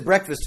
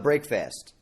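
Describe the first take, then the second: First: Said as one word, first like 'brek'. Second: Said as two words, first like 'brake'. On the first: The ordinary morning meal. "It's otherwise" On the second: The meal that ends a fast. "the only time of year that we pronounce it that way"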